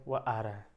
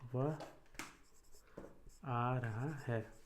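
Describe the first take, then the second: First: It is said as a plain, neutral statement. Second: It is said with a questioning tone. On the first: The speaker simply reports that he is coming. "समानार्थ" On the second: The speaker asks whether he is coming. "प्रश्न सूचक"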